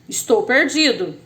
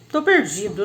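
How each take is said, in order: First: The first word is said in full. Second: The first word is shortened to one syllable. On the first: It is formal speech. "O outro foi mais formal" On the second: It is casual, spontaneous speech. "Uma conversa espontânea"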